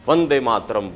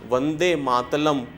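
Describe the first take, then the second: First: The second word is said with an r sound. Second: The second word is said with an l sound. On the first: The speaker is no longer lisping. The speaker calls it right. "बिन तुतलाए" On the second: A small child is still lisping. The speaker calls it wrong. "Usually हम लोग र को ल बोल जाते हैं"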